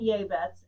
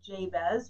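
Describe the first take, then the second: First: The name is given its Hebrew pronunciation. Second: The name is given its familiar English pronunciation. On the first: "this is the Hebrew pronunciation" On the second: "which we're more familiar with"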